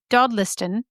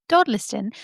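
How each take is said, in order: First: Said in the usual way. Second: Dodliston said in a put-on accent. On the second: Shown as a demonstration. Narrator retrying the village name Dodliston, in a put-on accent. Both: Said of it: "I'm just gonna say it with an accent".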